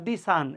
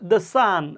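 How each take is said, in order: First: 'The' is said with a long 'thee' vowel. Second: 'The' is said with a short 'thuh' vowel. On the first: The speaker calls it wrong. "Not দি সান" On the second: The speaker calls it right. "এইটা আমরা বলবো হচ্ছে দ্য sun"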